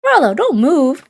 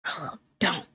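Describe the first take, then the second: First: Urgent warning. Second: Very soft hiss through teeth; whispered through clenched teeth. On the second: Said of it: "whispered through clenched teeth". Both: Acted.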